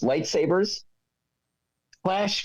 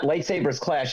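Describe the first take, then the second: First: There is a pause between the two words. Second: The two words run together without a pause. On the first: "it's phrased lightsabers, clash phasers, set to stun" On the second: "it's not lightsabers clash"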